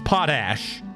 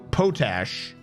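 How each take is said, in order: First: The first vowel is a short O sound. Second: The first vowel is a long O sound. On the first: "I'm sticking with potash" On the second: "long O"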